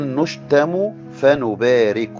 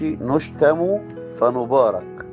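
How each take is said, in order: First: The last word ends with an i vowel. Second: The last word ends with an a vowel. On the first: We bless those who revile us. The speaker calls it right. "لكن الآية بتقول نشتم فنبارك" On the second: We are blessed by God. The speaker calls it wrong. "الآية ما بتقولش نشتم فنبارك"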